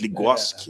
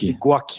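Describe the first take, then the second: First: The name has an s sound before its ending. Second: The name has no s sound before its ending. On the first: The speaker calls it wrong. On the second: The speaker calls it right.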